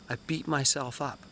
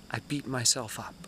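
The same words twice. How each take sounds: The two takes are said the same way.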